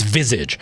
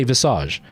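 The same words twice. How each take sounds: First: Visage as "VIZ-idge"; anglicised Visage ending in "idge"; American pronunciation. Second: Visage as "vih-SAHZH"; Frenchified Visage with long "ah"; French-style pronunciation. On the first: Retold or imitated. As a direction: punch the first syllable of Visage. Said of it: "the American way of saying it". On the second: Shown as a demonstration. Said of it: "We say Visage".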